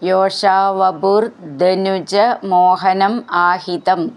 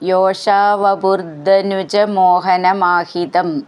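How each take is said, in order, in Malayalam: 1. വാക്കുകൾ വെവ്വേറെയാണ് ചൊല്ലുന്നത്. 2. വാക്കുകൾ ഒന്നിച്ചു ചേർത്താണ് ചൊല്ലുന്നത്.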